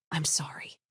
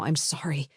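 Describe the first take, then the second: First: Breathy whispered I'm sorry, sobbing under it; barely a breath, voice gone from crying; whispered apology. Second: Sobbing. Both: A narrator's reading. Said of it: "Talia was sobbing now".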